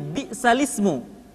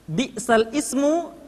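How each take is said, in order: First: The two words are linked without a glottal stop. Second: A glottal stop separates the two words.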